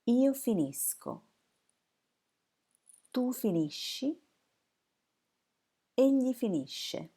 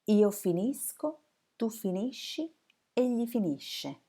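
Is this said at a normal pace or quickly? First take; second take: normal; quickly. First: It is said at a normal, unhurried pace. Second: It is said at a fast pace.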